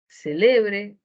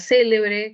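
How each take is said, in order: First: The stress is on the second syllable. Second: The stress is on the first syllable.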